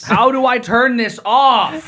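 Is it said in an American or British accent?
American. It is said in an ordinary American accent.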